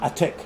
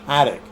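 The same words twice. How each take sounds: First: The middle T is said clearly and hard. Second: The middle T is said very softly. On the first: The speaker calls it wrong. "not attic" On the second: The speaker calls it right. "In American English, you say the T very softly"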